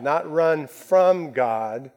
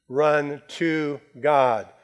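First: FROM stressed, slow and rising; slow, weighty, leaning hard on from. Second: Slow and firm, landing on run to God; stress on RUN. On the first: Pastor contrasting running from God, slow with FROM stressed. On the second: Pastor urging the flock to run to God, slow, stressed. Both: Shown as a demonstration.

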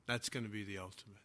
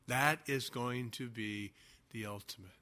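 First: "That's gonna be the ultimate" rushed out, much softer and lower; a fast, low, hushed throwaway; softly and quickly, almost to himself; hushed aside. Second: "That is going to be the ultimate" spelled out word by word, soft and lower; a soft, careful restatement for emphasis; deliberate restatement. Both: Acted.

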